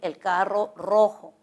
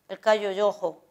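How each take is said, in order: First: The r sounds are trilled with a vibrating tongue. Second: The r sounds are replaced by y-like sounds. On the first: The speaker calls it right. "Por decir el carro rojo" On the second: The speaker calls it wrong. "el niño dice"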